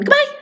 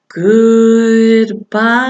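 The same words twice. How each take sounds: First: It is said very fast. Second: It is said very slowly.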